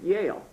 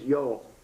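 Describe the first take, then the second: First: The name is said as one syllable, Yale. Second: The name is said with two syllables, Yo-el. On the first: "they were Litvaks, so they pronounced it Yale" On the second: "my Hebrew name is Yoel"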